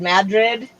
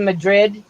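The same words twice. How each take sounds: First: "Madrid" stressed on the first syllable, MAD-rid; local pronunciation. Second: "Madrid" stressed on the second syllable, muh-DRID; standard pronunciation. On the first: Host explaining a New Mexico town's name, "Madrid" as MAD-rid. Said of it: "instead of Madrid". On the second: Host contrasting with the local name, "Madrid" as muh-DRID. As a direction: put the weight on the end of "Madrid": muh-DRID. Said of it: "at least say it right". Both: Shown as a demonstration.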